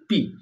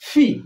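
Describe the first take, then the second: First: The p sound is plain, without a puff. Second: The p sound has a strong puff of air. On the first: The speaker calls it wrong. "আমরা এটাকে পি বলি" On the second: The speaker calls it right. "আমরা উচ্চারণ করব ফি"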